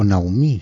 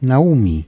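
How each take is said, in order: First: The name is pronounced with French sounds. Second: The name is pronounced with Spanish sounds.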